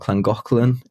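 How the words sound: The name is said with a Welsh pronunciation. "or Llangollen if you're Welsh"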